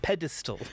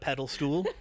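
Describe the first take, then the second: First: The word ends with the sound 'stal'. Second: The word ends with the sound 'stool'. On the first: The speaker calls it right. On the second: The speaker calls it wrong.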